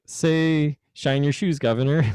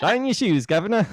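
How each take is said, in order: First: Fake British accent. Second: Higher, hammed-up British accent on "Shine your shoes, Governor"; fake British accent. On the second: Demonstrating his accent-learning product to a friend, hammed-up British accent. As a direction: push the cockney, "Governor" rising at the end. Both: Shown as a demonstration. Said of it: "you'd be like".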